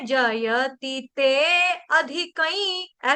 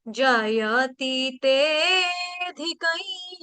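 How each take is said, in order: First: The 'a' is pronounced separately after a short 'te'. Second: The 'te' is lengthened with no separate 'a'. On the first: The speaker calls it wrong. "ऐसे कोई नहीं गाएगा, ये गलत है।" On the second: The speaker calls it right. "यानी कि सुर को दीर्घ कर देना है।"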